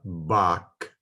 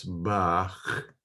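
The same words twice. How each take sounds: First: Bach said with a plain K, like "back"; slow Bach closed on a hard K; hard K ending. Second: Bach ending in a guttural, scraping CH; harsh CH ending. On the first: Teacher showing the mistake to avoid, Bach with K. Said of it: "It's not Bach". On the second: Teacher showing how it should be pronounced, throaty Bach. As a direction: let the end of Bach rasp at the back of the throat. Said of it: "and should be pronounced that way". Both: Shown as a demonstration.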